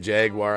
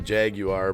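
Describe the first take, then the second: First: It is pronounced the casual, everyday way. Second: It is pronounced the careful, formal way. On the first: This is how people usually say it. "we always say Jaguar" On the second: This is the technically correct form. "I think it's technically Jaguar"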